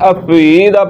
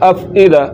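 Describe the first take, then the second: First: The vowel after the hamza is drawn out long. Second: The vowel after the hamza is short. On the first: The speaker calls it wrong. "زیر کو لمبا کرنے سے یا کے بعد نکل جائے گی" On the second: The speaker calls it right. "زیر کو لمبا نہیں کرنا"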